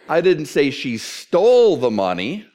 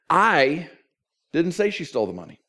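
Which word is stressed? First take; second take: stole; I. First: The stress falls on the word stole. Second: The stress falls on the word I. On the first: She did something else with the money. "What did she do? She borrowed it" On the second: Someone else said it. "Somebody else said it"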